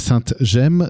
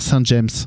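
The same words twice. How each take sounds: First: The name is said slowly and carefully. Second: The name is said quickly and run together. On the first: The speaker calls it right. "j'essaie de le dire lentement" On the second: The speaker calls it wrong. "sinon j'ai tendance à vouloir dire"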